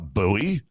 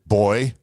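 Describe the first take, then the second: First: The word is said in the American way. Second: The word is said in the English way. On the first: "I was like, uh" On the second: "How would the English pronounce what we would call a buoy?"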